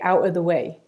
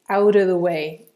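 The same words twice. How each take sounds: First: The T in 'out' is a glottal stop. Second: The T in 'out' is a flap, linked to 'of'. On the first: "I actually replaced uh, the T in out with a glottal stop" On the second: "in an American accent ... They'd probably use a flap T there and make a link"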